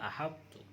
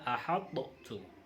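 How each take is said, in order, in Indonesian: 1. Huruf t pertama langsung menyatu dengan yang kedua. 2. Huruf t pertama dilepas dengan pantulan. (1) "tapi bacanya ahattu" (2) "bukan ahattu"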